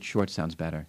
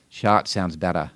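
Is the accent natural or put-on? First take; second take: natural; put-on. First: It is said in the speaker's own accent. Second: It is said in a put-on regional accent.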